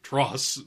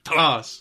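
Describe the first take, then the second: First: The first syllable is reduced and plain. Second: The first syllable is emphasized and punched. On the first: "the everyman way, which is just like Tross" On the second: "get the little stank on the TA, Taras, and you fucking punctuate it"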